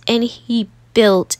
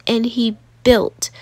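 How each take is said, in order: Both takes have the same delivery.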